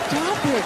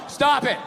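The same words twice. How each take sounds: First: It is said in a teasing, playful way. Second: It is read out flatly, like a dull transcript.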